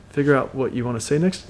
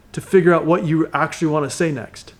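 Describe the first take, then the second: First: Curious mirroring tone. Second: Said in the usual way. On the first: Shown as a demonstration. Coach demos mirroring the last words, softly curious. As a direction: hand the words back as a quiet, wondering question. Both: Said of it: "with a little bit of a curious tone".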